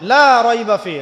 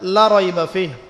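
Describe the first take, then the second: First: The vowel of 'la' is drawn out long. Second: The vowel of 'la' is cut short. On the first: There is no doubt in it. The speaker calls it right. "লাকে টানতে হবে" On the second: There is surely doubt in it. The speaker calls it wrong. "লাই আপনি টানেন নাই"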